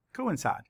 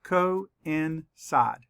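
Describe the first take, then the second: First: Said in the usual way. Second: "Coincide" slowly broken into co-in-cide; syllable by syllable. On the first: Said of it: "say the word again". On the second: Shown as a demonstration. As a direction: say "Coincide" as three separate syllables. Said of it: "Let's count the syllables".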